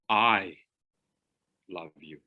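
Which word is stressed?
I. The word 'I' carries the strongest stress. It is the speaker, not someone else, who loves you. "If I key one of those words, I love you, not Joe"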